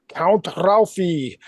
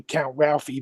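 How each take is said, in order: First: Put-on slow, drawn-out Hungarian vampire accent; Bela Lugosi. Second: Said in the usual way. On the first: Buddy greeting him after Transylvania wedding, Bela Lugosi accent. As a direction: stretch it out in a Hungarian Dracula accent. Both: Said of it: "He would say it in, like, Bela Lugosi accent".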